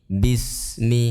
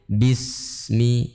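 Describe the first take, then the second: First: The s sound flows with continuous air. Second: The s sound flows with continuous air.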